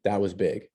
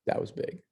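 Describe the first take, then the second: First: Said in the usual way. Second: Breathy whispered echo of "That was big."; hushed aside, barely voiced. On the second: Real, not acted. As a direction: drop to a whisper and let it sink in. Teacher repeats line, whispered echo.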